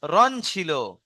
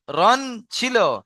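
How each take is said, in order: First: Said in the usual way. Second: রন ছিল said high and slow; slow emphasis. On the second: Shown as a demonstration. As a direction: drag out রন ছিল, pitched up. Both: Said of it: "কিন্তু র হবে কেন?".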